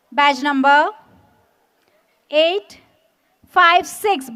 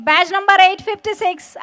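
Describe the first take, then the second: First: Said in the usual way. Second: Slow and louder, numbers drawn out; slow emphatic repeat. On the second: Real, not acted. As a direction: call it again slowly for the crowd. Badge number repeated for the crowd.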